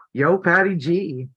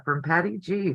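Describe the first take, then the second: First: A hint of a Brooklyn accent, lightly tried; half-hearted stab at a Brooklyn accent; weak Brooklyn accent. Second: Said in the usual way. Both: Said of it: "I can't do the Brooklyn accent well".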